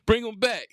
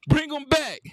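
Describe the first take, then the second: First: Said in the usual way. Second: Higher, louder, mocking bring 'em back; loud taunting repeat. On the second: Real, not acted. Gamer taunting his opponent after a bucket, loud and high. Trash talk after a score.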